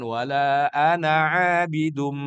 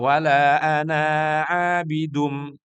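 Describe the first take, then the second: First: The vowel in ana is kept short. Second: The vowel in ana is drawn out long. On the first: The speaker calls it right. "Pendek sebagaimana Nabi mencontohkan" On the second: The speaker calls it wrong. "Eh dibaca panjang. ... itu salah khafi"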